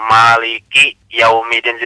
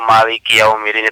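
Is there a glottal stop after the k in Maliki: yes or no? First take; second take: yes; no. First: A glottal stop follows the k sound. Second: The k flows smoothly into the vowel.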